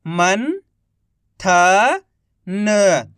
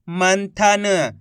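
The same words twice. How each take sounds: First: Each syllable drawn out very slowly; slow syllable-by-syllable reading. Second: Said in the usual way. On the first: Shown as a demonstration. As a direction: sound out सुरंग slowly as सु-रं-ग, one sound at a time. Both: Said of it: "एक अक्षर का उच्चारण करके".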